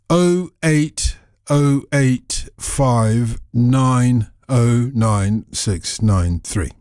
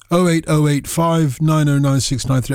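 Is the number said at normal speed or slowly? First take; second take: slowly; normal speed. First: The number is said slowly. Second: The number is said at normal speed.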